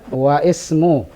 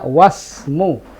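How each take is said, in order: First: The 'i' vowel is pronounced before the 's'. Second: The 'w' links straight to the 's'. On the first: The speaker calls it wrong. "Bukan begitu" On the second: The speaker calls it right. "alifnya itu ketika di tengah tidak dibaca"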